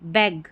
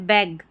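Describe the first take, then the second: No difference in how they are said.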